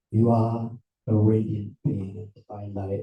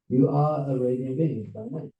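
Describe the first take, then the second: First: Low, level pronouncement; deep-voiced spiritual announcement; solemn proclamation. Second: Said in the usual way. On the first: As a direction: intone it deep and even. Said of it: "I come along and say".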